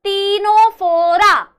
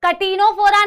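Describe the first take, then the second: First: "टीनोफोरा" loud, slow, starting on tee; emphatic drawn-out "टीनोफोरा"; correct pronunciation. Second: "कटिनोफोरा" with a short ka before t; wrong pronunciation. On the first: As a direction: stretch "टीनोफोरा" out with no k. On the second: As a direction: sound the k in "कटिनोफोरा". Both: Shown as a demonstration. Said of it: "कटिनोफोरा नहीं है".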